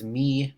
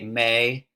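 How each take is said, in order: First: The vowel is a long 'ee' sound. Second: The vowel is an 'ay' sound. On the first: This is the modern English pronunciation. "in modern modern pronunciation" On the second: This is the Middle English pronunciation. "in Middle English, you'd say"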